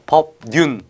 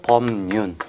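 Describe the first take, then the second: First: The first syllable ends in a B sound. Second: The first syllable ends in an M sound. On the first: "처음에는 이제 미음이 뭐 법부터 이렇게 되겠죠" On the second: "다시 비음화가 일어나서"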